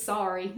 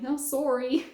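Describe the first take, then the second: First: Said in the usual way. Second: "sorry" imitated as Canadian "SORE-ee"; Canadian accent. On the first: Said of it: "I love the way he says". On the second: Fondly mimicking her Canadian boss, "sorry" in Canadian accent. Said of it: "I love the way he says sorry".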